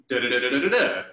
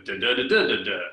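First: Nonsense syllables with a rise at the end; rising melody demo. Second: Nonsense syllables that fall at the end; falling melody demo. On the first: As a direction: hum the line with the tune lifting on the last "da". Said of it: "Kara would have read a line". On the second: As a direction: hum the line with the tune dropping on the last "da". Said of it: "as opposed to". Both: Shown as a demonstration.

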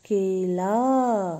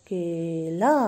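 First: केला stretched very slowly and loud; slow model reading. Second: Said in the usual way. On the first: Shown as a demonstration. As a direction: draw out केला for the class to copy. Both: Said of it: "तो इसे एक साथ पढ़ेंगे बच्चों".

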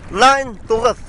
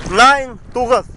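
No difference in how they are said.

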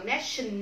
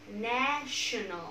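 First: "national" run together as a mistaken reading; "national" mispronounced as ne-shun-nol; wrong reading demo. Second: "national" slowly as NA-sho-nal; slow model "national", long first vowel; three clear syllables. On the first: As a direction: show how not to say "national". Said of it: "không đọc là national". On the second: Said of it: "Chỉ đơn giản ba âm tiết là na". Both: Shown as a demonstration.

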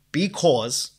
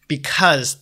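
First: Slow, drawn-out Boston vowels; Boston accent. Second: Said in the usual way. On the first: Real, not acted. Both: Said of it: "that was my Boston accent there".

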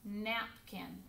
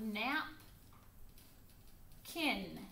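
First: Said in the usual way. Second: "nap, kin" with a long pause between; split into syllables. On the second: Shown as a demonstration. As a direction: say "nap", hold off, then "kin". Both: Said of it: "divide napkin into two syllables".

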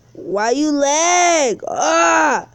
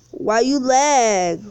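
First: A drawn-out yell at the lagging game; slow down and shout it at the screen; frustrated shout. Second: Said in the usual way. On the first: Real, not acted. Streamer yelling at his lagging game, slow shout.

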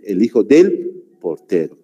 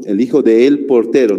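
First: "del" joined in one syllable; right form del. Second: "de el" split into two words; wrong form de el. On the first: Teacher giving the correct form after the wrong one. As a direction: run "del portero" together. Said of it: "se dice". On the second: Teacher showing the wrong form before correcting it. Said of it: "no se dice así". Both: Shown as a demonstration.

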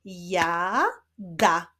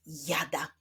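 First: "jada" stretched out as jaaa... da; long held first syllable in "jada", pause, then da. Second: Said in the usual way. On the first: Shown as a demonstration. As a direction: build up "jada" from two separate syllables. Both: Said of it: "Rozwiązaniem rebusu będzie wyraz".

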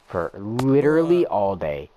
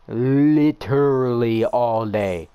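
First: Said in the usual way. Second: Drawn-out whine. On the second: Real, not acted. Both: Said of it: "the pain".

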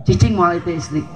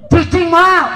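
First: Said in the usual way. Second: Emphatic shout. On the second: Acted. Preacher shouting the punchline to the congregation, emphatic shout. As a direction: shout it high and loud, hammering moal.

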